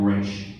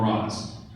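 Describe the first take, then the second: First: The name ends with a hushing 'sh' sound. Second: The name ends with a buzzing 'z' sound. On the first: It is how a member of the League says it. "if you're part of the League, you call him Raish" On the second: It insults him, said by an outsider to the League. "if you want to insult Raz, Raish, you call him Raz. If you're not part of the League"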